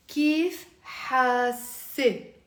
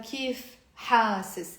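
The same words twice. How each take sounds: First: Hasi drawn out very slowly, no final s, ending ay; slow feminine form. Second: Hasis drawn out slowly, ending in s; slow masculine form. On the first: Teacher gives form for asking a girl, very slow. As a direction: kif hasi, stretched, ending open. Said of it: "you have to say". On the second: Teacher contrasts form for asking a guy, slow. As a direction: kif hasis spoken slowly for a man. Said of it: "you're not using". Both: Shown as a demonstration.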